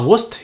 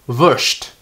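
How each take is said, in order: First: The final st is a plain s-t sound. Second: The final st is formed further back, sht-like. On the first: The speaker calls it wrong. "Bukan Wurst ya" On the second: The speaker calls it right. "tapi Wurst"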